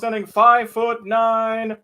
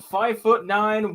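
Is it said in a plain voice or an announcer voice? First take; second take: announcer; plain. First: It is said in a boxing announcer voice. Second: It is read in a plain, ordinary voice.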